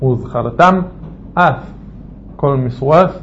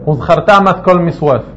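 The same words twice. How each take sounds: First: The words are clearly separated from each other. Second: The words run together without separation. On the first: The speaker calls it right. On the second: The speaker calls it wrong.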